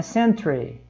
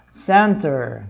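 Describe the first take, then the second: First: Century said as "sen-tre", r before the final vowel; British spelling pronunciation. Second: Center with an American r-coloured ending; American pronunciation of center. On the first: Teacher contrasting British English for learners, century voiced as "sen-tre". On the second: Teacher showing learners the American word, center ending in -er. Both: Shown as a demonstration. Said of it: "também muda um pouquinho a pronúncia".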